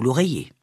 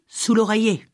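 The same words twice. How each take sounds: First: Said in the usual way. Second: Higher crone voice, stressing oreiller with a falling end; old witch. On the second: A narrator's reading. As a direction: hammer home "l'oreiller" like a stubborn witch. Old witch repeats instruction.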